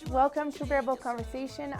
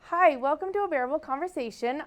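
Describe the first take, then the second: First: It is said with low, flat energy. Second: It is said with high, lively energy.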